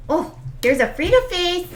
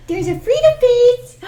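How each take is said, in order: First: Cooing at puppy. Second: Louder higher coo. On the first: Owner cooing at her puppy's face, high baby talk. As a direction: coo at the dog in a high voice. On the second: Owner gushing at her puppy, high and louder. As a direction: really gush over the dog. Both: Real, not acted.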